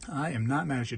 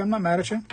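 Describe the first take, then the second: First: Softer, with "not" leaned on; "I am not mad at you" slowed and quieter, every word apart; stress on not. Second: Said in the usual way. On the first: Real, not acted. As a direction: press on "not" gently to soothe a commenter. Reassuring a commenter, said twice.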